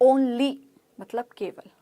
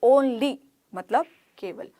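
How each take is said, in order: No difference in how they are said.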